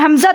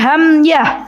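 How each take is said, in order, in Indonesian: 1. Konsonan di tengah itu bunyi z. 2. Konsonan di tengah itu bunyi y. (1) "bukan Hamzah" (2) "tapi Hamyah"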